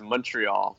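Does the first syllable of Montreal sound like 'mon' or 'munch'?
munch. The first syllable is said like 'munch'.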